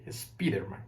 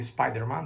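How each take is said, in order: First: It is said with Spanish sounds, as spelled. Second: It is said with a normal English pronunciation. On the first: "they say Spider-Man. They try to pronounce the word like it's written, ... in Spanish" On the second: "they don't say the Spider-Man"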